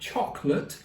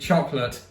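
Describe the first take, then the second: First: It is said in a posh British accent. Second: It is said in an American accent. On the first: "all posh" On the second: "when Americans say the word chocolate, like literally chocolate"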